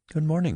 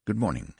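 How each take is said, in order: First: High, sing-out pleasant hello; pleasant greeting. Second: Said in the usual way. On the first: A narrator's reading. Nurse at the desk greeting a visitor, pleasant. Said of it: "looking up at him pleasantly".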